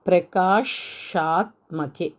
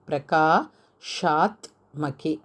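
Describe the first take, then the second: Both takes have the same delivery.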